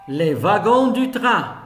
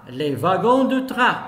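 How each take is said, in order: No difference in how they are said.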